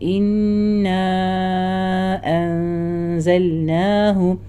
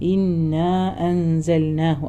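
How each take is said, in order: First: The long vowel is stretched for a long time. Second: The long vowel is held only briefly. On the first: "ഇവിടെ മദ് നാല് മുതൽ അഞ്ച് ഹറക്ക വരെ കൊടുക്കുക" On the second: "ആ രീതിയിൽ നോർമലിയായി പറയാം"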